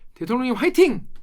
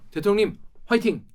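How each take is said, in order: First: It is said in a light, casual way. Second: It is said in a grave, solemn way.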